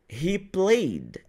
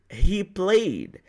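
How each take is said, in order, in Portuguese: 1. O final -ed é um som final sutil. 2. O final -ed é um som final sutil.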